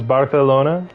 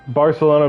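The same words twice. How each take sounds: First: The c is said with a th sound. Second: The c is said with an s sound.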